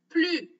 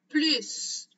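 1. Le mot se termine sur sa voyelle, sans s. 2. Le mot se termine par un son s. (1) "on ne prononce pas la lettre S" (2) "c'est en prononçant la lettre S à la fin"

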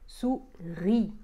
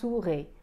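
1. La voyelle finale est un 'ee' net. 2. La voyelle finale n'est pas un 'ee' net.

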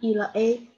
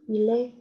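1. 辅音和后面的元音被分开了。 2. 辅音会顺畅地连到后面的元音上。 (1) "不能e 了a 啊" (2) "它要一气呵成ele"

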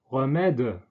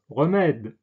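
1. Auf den Endkonsonanten folgt ein kurzer Vokal. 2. Der Endkonsonant endet sauber, mit entspannten Lippen. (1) "was durchaus im Südfranzösischen bei manchen Sprechern vorkommt, aber im Standardfranzösischen nicht korrekt wäre" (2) "Das ist die sogenannte Détente"

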